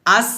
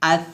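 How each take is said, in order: First: আস with a sharp hissed s; whistling s instead of th in আস; wrong sibilant. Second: আস ending in a soft lisped th; tongue to upper teeth, gentle air on আস; soft hams. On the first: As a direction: show the mistake, a plain s ending আস. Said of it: "আস বলা যাবে না". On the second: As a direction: say আস as "ath". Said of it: "নরম বাতাস বের করবেন". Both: Shown as a demonstration.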